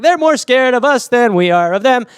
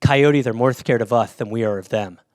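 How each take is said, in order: First: High, booming mock confidence; hammed-up confident declaration; loud confidence. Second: Low lisping imitation; lisped, low mock reassurance; reassuring friend. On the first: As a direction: proclaim it boldly, pitched up. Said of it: "I take a confident five steps". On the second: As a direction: mimic a friend calmly reassuring, with a lisp. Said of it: "No, he goes".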